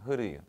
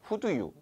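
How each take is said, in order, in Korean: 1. 단어들이 붙어서 하나의 약한 소리가 돼요. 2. 각 단어를 따로, 온전히 발음해요. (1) "약간 흐르유처럼 하면 좋아요" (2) "이렇게 하지 말고"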